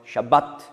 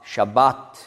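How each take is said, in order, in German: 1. Der zweite A-Laut ist kurz. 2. Der zweite A-Laut ist lang. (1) "ein kurzes A" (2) "hat ein langes A"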